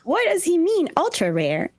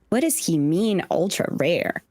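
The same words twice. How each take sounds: First: It is said in a higher Chopper voice. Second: It is said in a Chopper voice.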